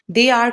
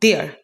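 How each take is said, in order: First: Two separate full words are said. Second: The words merge into one short syllable.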